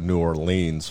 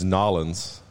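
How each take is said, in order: First: The name is said in full, each part separate. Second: The name is squeezed into a short clipped form. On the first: "or you go New Orleans for like the more like Kansas" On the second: "It's Nolens"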